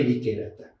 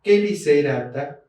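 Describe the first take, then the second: First: "liquerata" with K where S belongs; hard K in "liquerata"; C wrongly as K. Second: "¿Qué licerata?" said as "keliserata"; slow "licerata", C as S. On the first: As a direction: say "liquerata" with the mistaken K sound. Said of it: "No es que liquerata". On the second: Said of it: "se pronuncia como S". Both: Shown as a demonstration.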